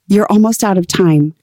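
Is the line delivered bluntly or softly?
bluntly. The line is said in a plain, blunt way. The speaker calls it wrong. "I didn't want to say it like that"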